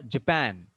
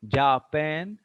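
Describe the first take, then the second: First: JaPAN, short weak Ja and strong pan; stress on pan. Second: JAA-pan, first vowel full and drawn out; wrong first-syllable stress. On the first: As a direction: hit the second syllable of Japan. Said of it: "Here stress is on pan". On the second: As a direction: stretch and stress Ja in Japan. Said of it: "The stress is where?". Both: Shown as a demonstration.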